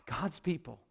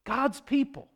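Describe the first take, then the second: First: Very soft, low aside; hushed disbelief. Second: Higher-pitched, still soft exclamation; incredulous repeat. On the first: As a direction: say it low, barely voiced. Preacher dwells on the betrayal. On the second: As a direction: lift the repeat high in disbelief. Repeats the phrase in disbelief. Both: Real, not acted.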